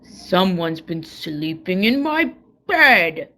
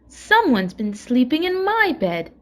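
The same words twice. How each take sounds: First: It is said with a great big growl. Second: It is said with a middle-sized growl.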